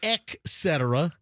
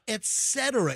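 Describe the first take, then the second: First: It begins with 'ek', adding a k sound. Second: It begins with a plain 'et', no k sound. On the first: The speaker calls it wrong. "It's not et cetera. ... add like an X or a K" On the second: The speaker calls it right. "It's et cetera"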